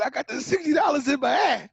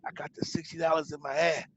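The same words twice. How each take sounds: First: Higher and louder, repeated so she hears; repeating himself louder after she says what. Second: Said in the usual way. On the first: Retold or imitated. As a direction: say it again, louder, since she missed it.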